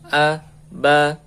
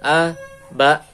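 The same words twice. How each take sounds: First: The final syllable ends on an open vowel. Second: The final syllable ends with an abrupt stop. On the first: The speaker calls it right. "tidak dimatikan" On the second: The speaker calls it wrong. "seperti e, hamzah yang disukun di akhirnya"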